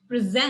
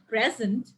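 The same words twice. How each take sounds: First: The stress is on the second syllable. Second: The stress is on the first syllable. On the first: It is the verb. "words that has a stress on the last syllable" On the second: It is the noun. "we just said present"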